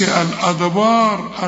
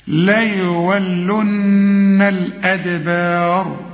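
First: الأدبار with every letter thickened, wrong. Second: Very slow sung ليولن الأدبار, nun held; chanted recitation. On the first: Teacher imitates the student error, mock wrong. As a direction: say الأدبار heavy throughout, as the mistake. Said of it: "ما تقولش الأدبار". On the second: Teacher chants the verse, slow melodic recitation. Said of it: "لازم تغني". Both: Shown as a demonstration.

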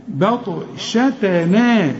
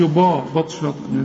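First: بطشتنا slowly, thin vowels and only the ط heavy; light letters. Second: با بطشتنا with a thick, dark b and a; mock the mistake, heavy با in بطشتنا; wrong heavy ba. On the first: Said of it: "والتاء تا تنا". (بطشتنا بترقيق كل الحروف إلا الطاء) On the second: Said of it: "ما تقولش با بطشتنا". (با بطشتنا بتفخيم الباء غلط) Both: Shown as a demonstration.

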